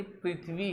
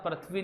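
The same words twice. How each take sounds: First: पृथ्वी with a clear "pri" at the start; correct "prith-vi". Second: पृथ्वी mispronounced with "pra" at the start; wrong "prath-vi". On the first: Teacher corrects the children's reading, correct pronunciation. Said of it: "पृथ्वी है". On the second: Teacher rejects the children's reading, wrong pronunciation. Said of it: "पृथ्वी नहीं". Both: Shown as a demonstration.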